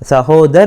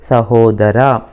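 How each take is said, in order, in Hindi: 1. शब्द के अंत में कोई स्वर नहीं है। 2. शब्द के अंत में स्पष्ट 'a' स्वर है।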